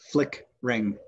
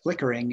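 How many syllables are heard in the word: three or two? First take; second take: two; three. First: The word is said with two syllables. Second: The word is said with three syllables. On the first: "you pronounce it as if it were flickering. The second syllable gets dropped" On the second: "flickering is three syllables"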